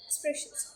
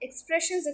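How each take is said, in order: First: Whispered. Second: Said in the usual way. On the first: Shown as a demonstration. Teacher whispering the last keyword to viewers. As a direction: drop it to a soft whisper. Closing repetition fading to whisper.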